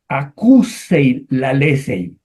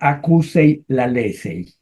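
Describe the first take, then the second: First: The phrase is read slowly, word by word. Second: The phrase is read quickly and smoothly.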